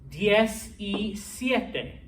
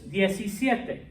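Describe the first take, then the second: First: The three words are said slowly and separately. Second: The three words are run together into one. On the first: The speaker calls it wrong. "no native Spanish speaker would ever do it that slowly" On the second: The speaker calls it right. "your pronunciation should also be smushed together"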